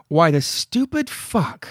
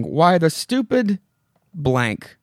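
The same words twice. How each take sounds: First: Slow, drawn-out curse in an odd voice; Wilma's outburst. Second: Wilma's outburst. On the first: Reading Wilma's last line with the curse word swapped in, slow and odd. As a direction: spit out the swear slowly, like a comic punchline. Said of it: "So I'll use". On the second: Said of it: "We end with Wilma saying". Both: Retold or imitated.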